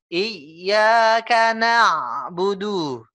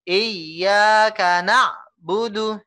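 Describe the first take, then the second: First: The phrase flows smoothly without a break. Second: The phrase stops abruptly in the middle. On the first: The speaker calls it right. "Gitu ya" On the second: The speaker calls it wrong. "Itu sekali lagi itu rem mendadak"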